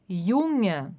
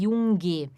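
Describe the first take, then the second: First: The n blends into a soft ng sound. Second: The n is followed by a hard g sound. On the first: The speaker calls it right. "um N antes vai ser com H aqui, que nem no português o Nhe" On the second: The speaker calls it wrong. "a gente não diz aqui Junge. Isso é muito errado"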